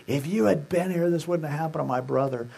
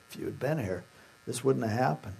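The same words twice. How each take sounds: First: Mock accusation, pitched up and pressing; accusing. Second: Very soft, low, grieving; hushed lament, gently acted; tearful, not accusing. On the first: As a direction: say it as a pointed reproach. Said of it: "it wasn't an accusing". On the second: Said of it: "She was weeping and crying".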